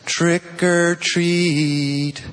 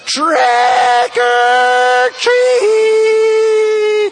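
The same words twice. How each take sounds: First: It is said at a moderate volume. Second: It is yelled at the loudest volume.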